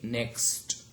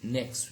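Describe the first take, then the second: First: The final t sound is clearly pronounced. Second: The final t sound is dropped before the next word. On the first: "We say next" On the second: "so t is elided"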